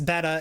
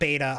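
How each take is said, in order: First: The first syllable sounds like 'bet'. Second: The first syllable sounds like 'bay'. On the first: The speaker calls it right. "which it's betta" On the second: The speaker calls it wrong. "it's not beta"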